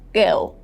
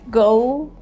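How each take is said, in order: First: It is said with a British vowel. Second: It is said with an American vowel. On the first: "British version" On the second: "American version"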